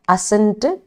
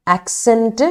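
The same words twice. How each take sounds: First: അസെന്റ് said as a-sent, no k sound; ascent without k. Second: ആക്സെന്റ് said as ak-sent, with a clear k; accent with k. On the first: Teacher contrasting two words for students, അസെന്റ് with no k. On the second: Teacher contrasting two words for students, ആക്സെന്റ് with a k. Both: Shown as a demonstration. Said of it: "ആക്സെന്റ് എന്ന് പറയില്ലേ".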